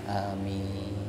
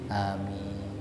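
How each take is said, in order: First: It is said politely and calmly. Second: It is said politely and calmly.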